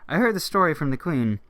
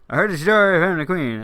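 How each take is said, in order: First: It is said in a plain reading voice. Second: It is said in a silly soldier voice.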